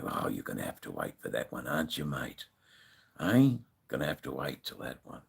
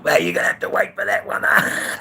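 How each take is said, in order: First: Low, quiet imitated brush-off; retold casual reply, much softer and deeper; offhand retort. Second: High, loud, quick mock retort; hammed-up retold yell, far up in pitch; mocking rebuttal. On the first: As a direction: toss it off under your breath, well down in pitch. Retelling his offhand reply to biker. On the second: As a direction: crow it out like a taunt. Acts out his rebuttal to biker.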